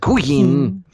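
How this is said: The name is said in a put-on Asian accent.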